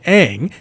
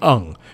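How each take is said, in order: First: The name is said with an anglicized vowel. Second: The name is said with an Asian-style vowel. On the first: The speaker calls it wrong. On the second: The speaker calls it right.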